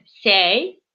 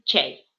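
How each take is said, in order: First: The word begins with an s sound. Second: The word begins with a ch sound. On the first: This is how speakers of another dialect say it. "еще есть у нас один диалект, когда вместо ч говорят буковку с" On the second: This is how speakers of one regional dialect say it. "мой ди м мишарский диалект ... мы говорим ч"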